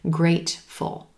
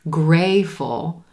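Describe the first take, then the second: First: The T is gently released before the second syllable. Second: The T sound is left out entirely. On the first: The speaker calls it right. "do a gently released T" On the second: The speaker calls it wrong. "you don't want to say grayful"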